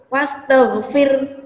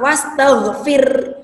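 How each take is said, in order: The two takes are said the same way.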